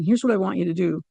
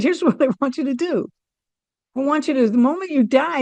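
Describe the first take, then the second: First: Said in the usual way. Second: Higher, through a laugh; bubbling with a laugh as you offer it; laughing, lifted. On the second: Retold or imitated. To dying brother-in-law, cheerful laughing higher voice.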